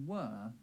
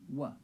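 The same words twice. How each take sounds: First: The vowel is full, not reduced. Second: The vowel is reduced to a schwa.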